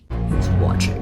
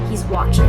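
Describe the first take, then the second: First: It is said in a put-on Batman voice. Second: It is said in his normal voice.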